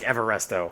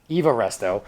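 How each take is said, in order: First: The first part sounds like 'Ever', with an r. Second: The first part sounds like 'Eva', ending in a vowel. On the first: The speaker calls it wrong. "I've been saying it too long, like Everresto" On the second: The speaker calls it right. "It's Eva Resto"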